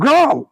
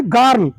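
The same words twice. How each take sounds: First: American গার্ল, r right after g; American accent. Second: Bengali-style গার্ল with open a; Bengali accent. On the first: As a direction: model গার্ল as American "gral". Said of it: "আমরা আমেরিকানে কি বলবো?". (American ধাঁচে গার্ল) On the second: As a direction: model গার্ল as local "gaarl". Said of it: "আমরা কি বলি?". (বাঙালি উচ্চারণে গার্ল) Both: Shown as a demonstration.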